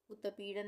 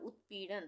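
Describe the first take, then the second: First: उत्पीड़न wrongly said u-ta-pee-dan; wrong full t. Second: उत्पीड़न as ut-pee-dan, no vowel after त; correct half t. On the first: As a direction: slip a vowel after त in उत्पीड़न, u-ta-peedan. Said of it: "उत्पीड़न नहीं बोल रहे हैं". (उत्पीड़न में पूरा त, "उतपीड़न" जैसा गलत उच्चारण) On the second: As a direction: close the त in उत्पीड़न straight onto पी. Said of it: "हम बोल रहे हैं उत्पीड़न". (उत्पीड़न में आधा त, "उत्-पीड़न") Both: Shown as a demonstration.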